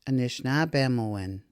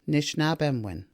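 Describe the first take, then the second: First: One weak vowel, an i, is dropped. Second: All three weak vowels are dropped. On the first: "where the I, noted in yellow, is dropped" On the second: "none of those three vowels are pronounced"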